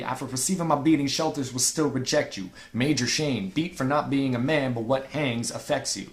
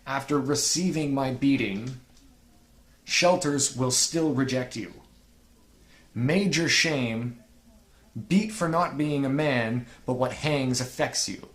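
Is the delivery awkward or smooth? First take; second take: smooth; awkward. First: It is delivered smoothly and with control. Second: It is delivered awkwardly and stumbling.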